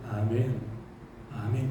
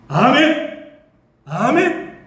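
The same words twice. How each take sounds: First: It is said softly and plainly. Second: It is said very loudly and fervently.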